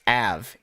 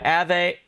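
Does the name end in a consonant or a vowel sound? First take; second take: consonant; vowel. First: The name ends on a short consonant. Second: The name ends with an added vowel sound. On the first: The speaker calls it right. "It's just Av" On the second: The speaker calls it wrong. "It's not Ave"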